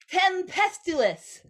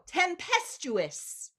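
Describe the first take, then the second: First: It is said garbled, with the tongue out. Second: It is said crisply, with the tongue in. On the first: "Tongues out" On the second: "Tongues in"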